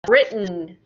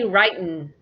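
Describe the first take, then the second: First: The first vowel is short, as in 'bit'. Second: The first vowel is long, as in 'bite'. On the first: The speaker calls it right. "we change the sound to I" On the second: The speaker calls it wrong. "do not say writin'"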